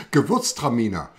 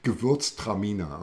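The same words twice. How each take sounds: First: "Gewürztraminer" said the German way, as ge-VÜRTS-tra-mee-ner; German pronunciation. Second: "Gewürztraminer" said the German way, ge-VÜRTS-tra-mee-ner, falling; German pronunciation. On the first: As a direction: say "Gewürztraminer" with a hard G and a V sound. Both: Shown as a demonstration. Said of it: "see how many of you can say Gewürztraminer".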